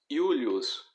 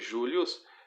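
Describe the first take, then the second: First: It starts with a 'y' sound. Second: It starts with a soft 'zh' sound. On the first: The speaker calls it right. "Você deve pronunciar como o som de I" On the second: The speaker calls it wrong. "você não pode pronunciar a letra J como o som de G, como conhecemos na língua portuguesa"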